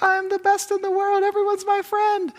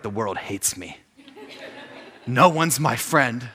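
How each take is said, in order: First: Very high, squeaky kid impression; gleeful middle schooler. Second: Mock dejection. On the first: New middle schooler boasting after elementary school, mock squeaky glee. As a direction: squeal it like an overjoyed child. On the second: Seventh grader feeling friendless, mock dejected voice. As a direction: say it as a hammed-up, sulking preteen.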